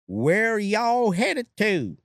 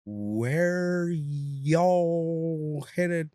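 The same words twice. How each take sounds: First: Much higher, slow and loud East Texas repeat; slower and louder. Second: Very slow. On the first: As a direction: drag it out loud like he's hard of hearing. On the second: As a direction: stretch every word out, East Texas accent. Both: Retold or imitated. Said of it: "Now you slow it down and louder".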